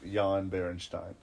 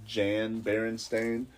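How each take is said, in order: First: The name is read with German pronunciation. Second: The name is read with English pronunciation. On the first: "if you read it in uh, German" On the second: "in English it would be pronounced"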